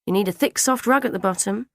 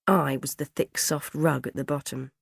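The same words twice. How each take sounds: First: Higher-pitched grandmotherly fussing; lightly acted gran voice, pitched up; sniffy gran. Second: Said in the usual way. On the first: A narrator's reading. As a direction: advise with a disapproving sniff. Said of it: "Gran had sniffed".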